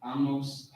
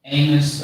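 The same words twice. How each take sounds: First: Amos softly as AHL-mohss; optional pronunciation. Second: Amos as AY-nuss, weak second vowel; optional pronunciation. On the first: Listing options for listeners, Amos softly as AH-mohss. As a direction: say Amos with an open "ah" and full O. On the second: Listing options for listeners, Amos as AY-muss. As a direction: say Amos starting "AY", ending short. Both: Shown as a demonstration. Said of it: "however you wanna say it".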